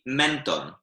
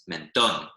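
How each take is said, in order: First: The stress is on the first syllable. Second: The stress is on the last syllable. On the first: The speaker calls it wrong. "otherwise it would be" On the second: The speaker calls it right. "the stress goes on the last syllable"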